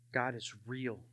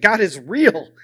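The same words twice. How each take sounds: First: Very soft, low, dawning thought; hushed realization. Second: Loud, forceful conviction; emphatic realization. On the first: Remembering thinking it in his cell, hushed and low. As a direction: barely voice it, as if thinking aloud. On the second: All he could think in his cell, said loud and emphatic. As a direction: punch it out as the thought takes hold. Same thought building to conviction. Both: Retold or imitated.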